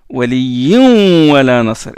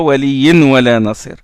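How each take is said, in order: First: The n merges into the w with nasalization. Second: The n is pronounced clearly before the w. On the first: The speaker calls it right. "on fait ronna, on fait élision" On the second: The speaker calls it wrong. "et non pas"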